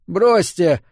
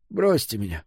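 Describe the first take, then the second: First: Louder, higher groaned protest; groaned plea. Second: Understated groan of protest; groaned plea. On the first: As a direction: groan it out insistently. (громкий протестующий стон) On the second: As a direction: groan it weakly, pleading to be dropped. (негромкий стон) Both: A narrator's reading. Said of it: "застонал Фрид".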